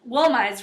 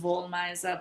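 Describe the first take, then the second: First: The name ends without a final vowel sound. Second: The name ends with a final vowel sound. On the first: The speaker calls it wrong. "I just call it Woolmize, even though I know that's not right" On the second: The speaker calls it right. "really is Woolmiza"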